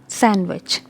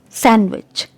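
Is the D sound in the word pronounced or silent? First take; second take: silent; silent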